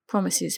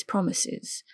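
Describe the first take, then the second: First: Said in the usual way. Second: Softer whispered repeat of promises; whispered echo. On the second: A narrator's reading. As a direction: let the second promises fall to a whisper. Teasing comeback, said twice.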